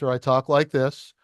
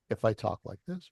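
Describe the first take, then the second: First: It is said loudly. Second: It is said quietly.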